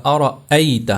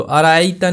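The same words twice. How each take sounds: First: أَرَأَيْتَ split as "ara-'ayta"; أَرَأَيْتَ with an audible break before "ayta"; clear hamza. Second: Quick أَرَأَيْتَ run together as "araayta"; أَرَأَيْتَ with hamza dropped; wrong, no hamza. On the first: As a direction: make a clear glottal catch inside أَرَأَيْتَ. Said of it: "حمزہ کو اچھی طرح سے آپ نے ظاہر کر کے پڑھنا ہے". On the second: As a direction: rush أَرَأَيْتَ with no glottal stop. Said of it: "أَرَأَيْتَ نہیں ہوگا". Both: Shown as a demonstration.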